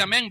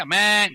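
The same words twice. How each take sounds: First: Said in the usual way. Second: AMÉN drawn out as a comic bellow; mock bleat on AMÉN; bellowed amen. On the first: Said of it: "ya no dice amén". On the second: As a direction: bawl AMÉN like a bleating animal.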